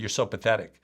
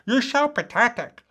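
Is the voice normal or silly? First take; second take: normal; silly. First: It is said in a normal, serious voice. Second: It is said in a silly, ridiculous voice. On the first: The criticism feels harsh and believable. The speaker calls it wrong. "so often we'll say to ourselves" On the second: The criticism loses its emotional intensity. The speaker calls it right. "you might want to make it ridiculous"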